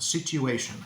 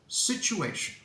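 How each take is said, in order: First: The t is said as a t plus y sound. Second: The t is said as a ch sound. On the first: The speaker calls it wrong. "say situation with a y sound" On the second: The speaker calls it right. "Don't be afraid of this nice ch, ch, ch sound"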